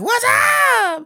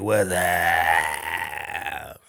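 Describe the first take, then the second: First: It is said loudly and energetically. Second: It is said in a subdued way.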